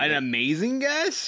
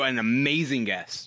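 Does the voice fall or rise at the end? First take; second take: rises; falls. First: The voice rises at the end like a question. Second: The voice falls at the end like a statement. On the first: It sounds like a question. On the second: It is a plain statement.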